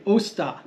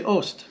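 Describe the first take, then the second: First: "osta" with the last "ah" sounded; full final ah. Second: "ost", cut off after the t; final ah dropped. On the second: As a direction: leave the last "ah" off "osta": "ost". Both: Shown as a demonstration. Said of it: "sometimes you can leave off that last ah".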